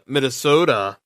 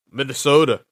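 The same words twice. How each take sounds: First: Said in the usual way. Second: Put-on Minnesota with a Minnesota accent, flapped t. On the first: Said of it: "I'm sounding like". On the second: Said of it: "trying to do my best Minnesota accent".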